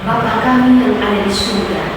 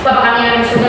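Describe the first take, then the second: First: The line is said slowly and earnestly. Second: The line is rattled off quickly. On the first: The prayer is felt and meant sincerely. The speaker calls it right. "Harus dihayati" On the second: The prayer is recited without being felt. The speaker calls it wrong. "kita doa juga cepat-cepat"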